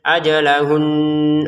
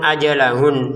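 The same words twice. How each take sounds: First: The final n carries a held nasal hum. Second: The final n stops without a held nasal hum. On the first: The n is a doubled n. "ada dengungannya di ujung suara kita itu" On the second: The n is a plain unstressed n. "Kalau nun sukun ajalahun selesai"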